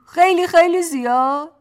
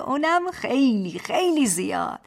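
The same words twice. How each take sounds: First: Put-on higher and louder baby talk, زیاد rising at the end; babyish question. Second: Put-on baby talk, خیلی خیلی stretched and settling down; babyish statement. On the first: Husband teasing his wife, babyish rising question. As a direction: ask خیلی خیلی زیاد؟ with a big childish rise. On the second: Husband teasing his wife, babyish statement. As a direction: state خیلی خیلی زیاد like a cooing child. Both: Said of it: "با همان لحن بچگانه".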